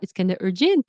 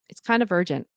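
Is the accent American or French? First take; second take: French; American. First: It is said in a French Quebec accent. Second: It is said in an American accent, falling. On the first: The speaker calls it wrong. "I'm going to do my French accent, Quebecer accent" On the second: The speaker calls it right. "it's falling for the statement"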